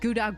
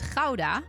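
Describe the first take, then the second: First: Gouda is said with an English pronunciation. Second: Gouda is said with a Dutch pronunciation. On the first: The speaker calls it wrong. "I was about to read it as Gouda Greenhorn" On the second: The speaker calls it right. "as you should say it, which is Gouda"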